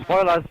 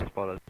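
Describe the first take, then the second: First: Loud warning shout. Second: Said in the usual way. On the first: Real, not acted. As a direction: yell it out as a warning.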